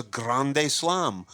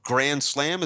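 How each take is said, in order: First: "grande slam" in a Spanish accent, GRAHN-day slahm. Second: Said in the usual way. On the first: Shown as a demonstration. Guest shows how Cubans say grand slam, Spanish accent. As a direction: give "grande slam" drawn-out Spanish vowels.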